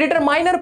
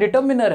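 First: The middle syllable sounds like 'mine'. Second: The middle syllable sounds like 'min'. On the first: This reading helps to remember the spelling. "लेकिन डिटरमाइनर पढ़ लो" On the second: This is how the word is really pronounced. "होता डिटरमिनर है"

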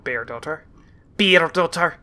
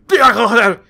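First: The name has a mild accent. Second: The name has a heavily exaggerated accent.

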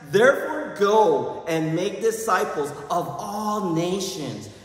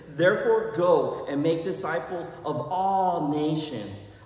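First: It is said loudly. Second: It is said at normal volume.

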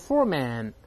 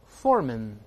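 First: The second syllable has a full vowel. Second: The second syllable has a weak vowel. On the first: The speaker calls it wrong. "注意不要读foreman" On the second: The speaker calls it right. "后面这个字母A 是轻读发啊"

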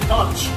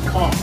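First: The word ends with a 'ch' sound. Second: The word ends with a 'k' sound. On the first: This is how most outsiders say it. "most people say conch" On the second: This is how locals say it. "We actually pronounce it conch, K-O-N-K"

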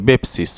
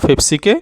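First: The word begins with a B sound. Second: The word begins with a P sound. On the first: "ওরা ফি বলে না, ওরা বি বলে" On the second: "আরবিতে ওরা পেপসিকে বেপসি বলে"

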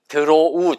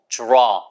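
First: It is said as three syllables, deu-ro-u. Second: It is said as a single syllable, draw. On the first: The speaker calls it wrong. "발음이 드로우 절대 아니고" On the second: The speaker calls it right.

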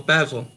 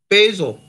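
First: The word is said in an English way. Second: The word is said in an American way.

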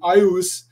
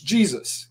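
First: The word begins with a vowel sound. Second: The word begins with a j sound. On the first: The speaker calls it wrong. "we're not saying ius" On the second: The speaker calls it right. "it's Jesus"

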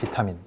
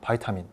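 First: The first syllable is said with an 'i' vowel. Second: The first syllable is said with an 'ai' vowel. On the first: This is the British pronunciation. "영국은 비타민" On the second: This is the American pronunciation. "미국은 바이타민"

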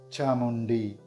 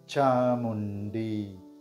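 First: It is said at a normal pace. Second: It is said slowly and drawn out.

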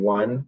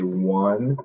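First: The word is said short and quick. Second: The word is drawn out and lengthened. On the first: "instead of saying one" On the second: "we would lengthen the sound"

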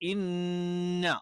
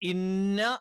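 First: The n is held with a long nasal hum. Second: The n is short with no held nasal hum. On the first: The speaker calls it right. "അവിടെ ഒന്ന് മണിക്കുക കൂടി വേണം" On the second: The speaker calls it wrong. "ഇന്ന എന്ന് പോരാ"

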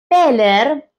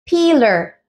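First: The first vowel is a short e sound. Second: The first vowel is a long ee sound. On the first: The speaker calls it wrong. "no es peler" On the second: The speaker calls it right. "la doble E ... al sonido de una I"

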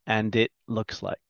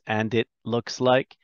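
No difference in how they are said.

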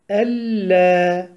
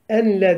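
First: The n merges fully into a doubled l. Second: The n is pronounced clearly before the l. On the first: The speaker calls it right. "Eşhedü elle bilagunne" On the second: The speaker calls it wrong. "Enle demiyoruz"

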